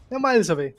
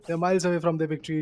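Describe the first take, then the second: First: "miles" punched louder and higher; stress on miles. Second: Said in the usual way. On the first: Real, not acted. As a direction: hit "miles" hard, then fall.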